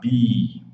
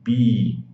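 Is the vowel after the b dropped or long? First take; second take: long; long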